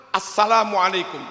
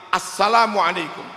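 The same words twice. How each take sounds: No difference in how they are said.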